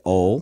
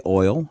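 First: OIL squashed into one syllable, like "ole"; country pronunciation. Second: Said in the usual way. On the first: Shown as a demonstration. Co-host showing Dad's way of talking, country OIL as "ole". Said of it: "say oil, right?". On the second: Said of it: "not say oil".

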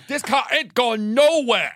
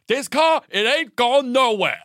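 First: Higher, slow, laughing through; repeated mock ultimatum, laughing. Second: Much higher, louder, slow and firm; slow mock dad ultimatum. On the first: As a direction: say it again, cracking up. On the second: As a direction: lay down the law on the hard shoulder. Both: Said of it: "and goes".

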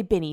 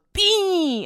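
First: Said in the usual way. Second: High squeal of "Benny" as a long "Beeee"; "Benny" mangled into one drawn-out falsetto noise; grunted name imitation. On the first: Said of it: "He doesn't even say Benny". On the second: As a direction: say "Benny" as a high, smeared "Beeny". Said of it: "like, a grunting sound".

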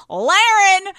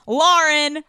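First: Lauren called out high and loud as LAIR-en; Lauren with an AIR first vowel, announced big; nickname Laren. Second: Lauren with an OR first vowel, pitched up; Lauren said as LOR-en, announced; proper name Lauren. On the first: Host introducing her best friend, nickname Laren sung out. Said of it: "We call her Lauren". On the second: Host correcting to the real name, Lauren as LOR-en. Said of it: "her name is Lauren". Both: Shown as a demonstration.

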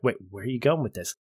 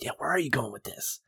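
First: A quick, suspicious question; wary objection. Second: Soft, eager, egging on; eager viewer. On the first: Ross objecting to Kaffee, quick and wary. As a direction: cut in, wary of the trap. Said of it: "responds is like". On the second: Viewer cheering the scene on, soft and eager. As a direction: lean in, hooked and curious. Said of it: "I'm like". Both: Retold or imitated.

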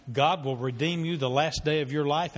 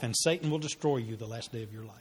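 First: God lifted, line rising hopefully; stress on God. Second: "Satan" hit, then the line drops and darkens; stress on Satan. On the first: Preacher promising the congregation God's rescue, hopeful lift. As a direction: lean on "God", rising toward hope. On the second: God and Satan contrasted. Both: Shown as a demonstration.

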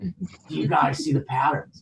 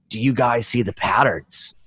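First: Very soft, awed mock question; barely-there spaced-out murmur; hushed trance. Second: Low, slow, dazed question; lightly acted stoned wonder; spaced-out tripper. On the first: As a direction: imitate a tripping friend lost in the wall. Same question, still staring at wall. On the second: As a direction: imitate a friend dreamily staring at a wall. Tripping buddy stares at wall.

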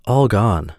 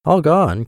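First: Measured cat's announcement; understated storybook cat reply; deliberate reveal. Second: High-pitched astonished echo; startled storybook mouse; crying out. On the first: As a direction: deliver the name as a settled fact. Cat tells name, mouse then cries it. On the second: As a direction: cry it out high, as a shocked mouse. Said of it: "cried the mouse". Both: A narrator's reading.

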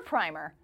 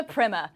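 First: Said in the usual way. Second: "primer" said the British way, as "primmer"; British "primer" with a dropped final r; British pronunciation. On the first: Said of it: "about British English versus American English". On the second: Shown as a demonstration. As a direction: say "primer" with a short i, rhyming with trimmer, in an English accent. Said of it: "or primer, about British English versus American English".

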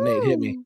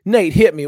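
First: Sing-song call to get Nate's attention; calling out high. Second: Firmer, louder second call, pitch back down; louder repeat. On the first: Calling on Nate, no answer. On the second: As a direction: say it again with more push so he answers. Repeats call after "To what?. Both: Real, not acted.

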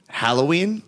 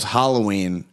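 First: Halloween with a short "hal" as in pal; wife's pronunciation. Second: Said in the usual way. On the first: Retold or imitated. Husband shows how his wife says Halloween, with a short-a "HAL". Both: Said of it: "where she calls Halloween Halloween".

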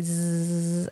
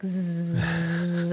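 First: Quiet buzzing exhale like a bee. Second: Bee voice. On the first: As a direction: hum out a soft bee buzz. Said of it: "and then you bumblebee". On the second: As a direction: buzz out the breath like a bee. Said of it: "you sound like a bumblebee". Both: Shown as a demonstration.

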